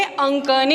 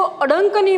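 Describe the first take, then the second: First: अंकनी with a nasal ं and no ड sound; correct pronunciation. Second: अडंकनी with a D sound in the middle; wrong pronunciation. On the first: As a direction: say अंकनी cleanly, nasal before the क. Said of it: "लेकिन वो गलत होता है ... इसको हम बोलेंगे अंकनी". (सही उच्चारण, अंकनी में अनुस्वार, ड नहीं) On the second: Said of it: "कई बच्चे इसको अडंकनी बोलते हैं लेकिन वो गलत होता है". (गलत उच्चारण, अडंकनी में बीच में ड की आवाज़) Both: Shown as a demonstration.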